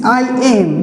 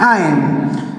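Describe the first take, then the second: First: It is said as two full words. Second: It is said as one contracted syllable. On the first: "this is I am" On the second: "but this is contraction form"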